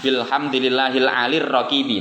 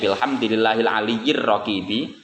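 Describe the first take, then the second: First: The word 'ali' is shortened, with no extra syllable. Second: The word 'ali' carries an extra 'yi' syllable. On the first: This reading fits the verse meter. "membacanya begitu kalau nadzoman ya" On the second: This is the original full form. "aslinya ya"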